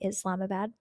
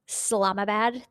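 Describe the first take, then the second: First: The word starts with a clear first vowel. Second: The first vowel of the word is dropped. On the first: This is not how locals say it. "They don't say Islamabad" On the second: This is how locals say it. "They forget the I"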